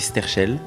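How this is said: The name is pronounced the French way. "en français, ça se dit Sterchel"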